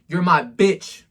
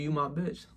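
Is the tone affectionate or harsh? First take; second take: harsh; affectionate. First: It is said in a harsh, cold tone. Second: It is said in a warm, affectionate tone. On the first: It comes across as an insult. The speaker calls it wrong. "Nobody gonna like that" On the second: It comes across as loving. The speaker calls it right. "It's a different type of energy"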